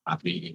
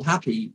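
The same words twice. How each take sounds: First: Happy dropped much lower and softer, flat and lifeless; flat monotone. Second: Said in the usual way. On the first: Shown as a demonstration. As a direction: say happy low, soft and flat, like a bored hypnotist. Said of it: "I was in that monotone voice". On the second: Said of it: "why would you say".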